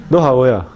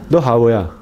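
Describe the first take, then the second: Both takes have the same delivery.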